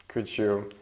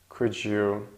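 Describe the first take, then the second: The two takes are said the same way.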